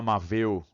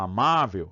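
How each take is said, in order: First: The stress is on the last syllable. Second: The stress is on the middle syllable. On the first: The speaker calls it wrong. "tá muito ruim essa pronúncia" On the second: The speaker calls it right. "no dia a dia a gente fala amável"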